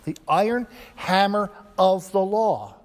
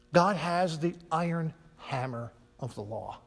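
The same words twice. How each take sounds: First: Louder, weightier repeat stressing law; emphatic repeat. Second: Said in the usual way. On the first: Shown as a demonstration. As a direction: hammer of the law, louder and higher.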